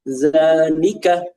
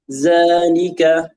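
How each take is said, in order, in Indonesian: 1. Tekanannya ada di suku kata kedua. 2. Tekanannya ada di suku kata pertama. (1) "mereka membaca dengan seperti itu zalika ... mereka pada huruf lam"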